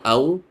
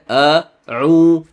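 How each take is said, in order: First: The vowels run together without a glottal stop. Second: A glottal stop separates the vowels. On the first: The speaker calls it wrong. "It is not au" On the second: The speaker calls it right. "the hamzah there, a'u, constriction"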